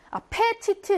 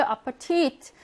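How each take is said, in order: First: 아페티트 with a full, strong 페; wrong strong e. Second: 아파티트 with weak 파 and stressed 티트; stress on last syllable. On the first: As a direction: punch the 페 in 아페티트. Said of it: "이렇게 하지 않고요". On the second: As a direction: reduce 파, lean on the final 티트 of 아파티트. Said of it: "강세가 뒤에 오니까 얘는 약해집니다". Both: Shown as a demonstration.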